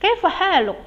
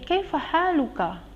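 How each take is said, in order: First: The last word ends with a bare consonant. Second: The last word ends with a short vowel. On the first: "kita juga boleh mematikan langsung" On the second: "Kalau kita bertanya ke laki-laki"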